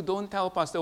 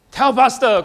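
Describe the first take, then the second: First: Said in the usual way. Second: Loud call-out. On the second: Shown as a demonstration. Pastor answers his own question to the church, loud and high. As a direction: shout TELL PASTOR, louder and higher. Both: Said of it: "what do you do?".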